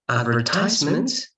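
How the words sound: It is said in an American English way. "the U S"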